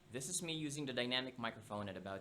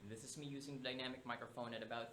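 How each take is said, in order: First: The voice is recorded about two feet away. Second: The voice is recorded about three feet away. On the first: "at about two feet away" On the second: "at about three feet away"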